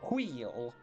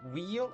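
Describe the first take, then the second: First: It starts with a breathy hw sound. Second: It starts with a plain w sound. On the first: The speaker calls it wrong. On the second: The speaker calls it right.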